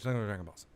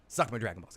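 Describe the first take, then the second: First: The phrase is mumbled weakly and unclearly. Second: The phrase is said strongly and clearly. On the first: The speaker calls it wrong. "I mumbled it. I was like" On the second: The speaker calls it right. "I should have just said stronger"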